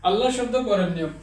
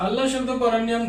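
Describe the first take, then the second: No difference in how they are said.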